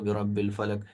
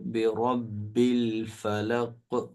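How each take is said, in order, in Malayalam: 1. അവസാന q ശബ്ദം വിഴുങ്ങപ്പെടുന്നു, ഏതാണ്ട് കേൾക്കാൻ കഴിയില്ല. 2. അവസാന q ശബ്ദം വ്യക്തമായി ഒരു ബൗൺസോടെ പുറത്തുവരുന്നു. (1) "ഈ അക്ഷരം കേൾക്കുകയില്ല" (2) "അങ്ങനെ കറക്റ്റ് ആയിട്ട് ഓതണം"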